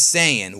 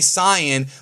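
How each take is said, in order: First: It is pronounced in the English-dub way. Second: It is pronounced in the Japanese-style way. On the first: This is how the English dub says it. "but the dub says Saiyan" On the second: This is how fluent Japanese speakers say it. "because I say Cyan"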